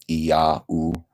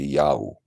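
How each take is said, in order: First: The word is said slowly, syllable by syllable. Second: The word is said fast, as one syllable. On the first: "phonetically, you would go I, ah, open sound like an A, I A W or a U" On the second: "if you say it fast, it would be Yau"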